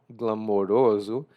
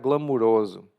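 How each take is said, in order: First: The vowel after 'glam' sounds like 'o'. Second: The vowel after 'glam' sounds like 'u'. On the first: "Apesar de se escrever com O" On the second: "eu tendo a pronunciar glamuroso"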